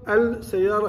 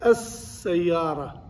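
First: "السيارة" said al-sayyara, with an audible l; wrongly sounded lam. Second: "السيارة" said as-sayyara, long doubled s, no l; lam assimilated. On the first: Teacher demonstrates the mistake, "السيارة" with the l sounded. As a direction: break "السيارة" into al plus sayyara, lam pronounced. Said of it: "تكتب السيارة خطأ". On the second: Teacher shows the correct assimilation, slow "السيارة" as as-sayyara. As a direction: slowly hold the s in "السيارة", skipping the lam. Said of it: "لكن ما تستطيع تنطقها". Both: Shown as a demonstration.

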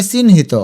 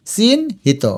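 First: Said in the usual way. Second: চিহ্নিত as a drawn-out chin, then hito; higher first beat and pause in চিহ্নিত; broken into parts. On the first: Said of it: "এইটা একইভাবে". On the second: Shown as a demonstration. Teacher sounds it out for spelling, চিহ্নিত in parts. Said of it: "ভেঙে ভেঙে লিখবে".

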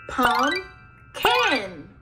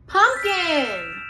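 First: "Pumpkin" split into two beats with a gap; syllable by syllable. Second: Said in the usual way. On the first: Shown as a demonstration. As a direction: break "Pumpkin" after the first syllable, each part drawn out. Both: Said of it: "clap the syllables".

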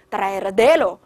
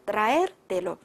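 First: "traértelo" misstressed on the "te"; stress shifted onto "te". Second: "traértelo" with "er" stressed, "telo" unstressed; stress on verb's "er". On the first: Teacher showing how the stress runs off, "traértelo" stressed on "te". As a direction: punch the "te" in "traértelo", not "er". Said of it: "重音在倒数第二音节". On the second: Teacher making the verb audible, "traértelo" stressed on "er". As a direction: hit "er" in "traértelo", then drop off. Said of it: "这样是不是就听出来了". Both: Shown as a demonstration.

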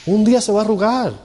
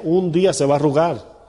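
First: Emphatic repeat. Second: Said in the usual way. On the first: Shown as a demonstration. Pastor warning husbands about aging wives, emphatic high repeat.

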